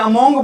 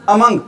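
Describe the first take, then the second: First: "among" with an o sound, "a-MONG"; mispronounced "among". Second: "among" as "uh-MUNG", short u; corrected "among". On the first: Teacher mimics students' mistaken reading, "among" mispronounced as "a-MONG". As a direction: say "among" as "among", rounded second vowel. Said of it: "आपने इसको among नहीं बोलना". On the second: Teacher shows class what to say, "among" correctly as "uh-MUNG". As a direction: say "among" with an unrounded second vowel. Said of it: "क्या बोलना है भी आपने इसको?". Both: Shown as a demonstration.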